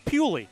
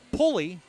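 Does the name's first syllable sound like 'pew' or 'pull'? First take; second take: pew; pull. First: The first syllable sounds like 'pew'. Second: The first syllable sounds like 'pull'. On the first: "the correct pronunciation is Pewley" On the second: "he doesn't mind being called Pulley"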